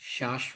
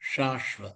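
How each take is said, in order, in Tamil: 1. 'sh' ஒலி தட்டையான நாக்குடன் உருவாக்கப்படுகிறது. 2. 'sh' ஒலி நாக்கை சுருட்டி உருவாக்கப்படுகிறது. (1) "ஷாஸ்வ இல்ல" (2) "நாக்க முடிச்சுண்டு"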